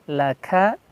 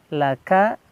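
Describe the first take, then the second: No difference in how they are said.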